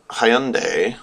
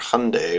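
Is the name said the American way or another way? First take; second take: another way; American. First: The name is not said the common American way. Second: The name is said the common American way.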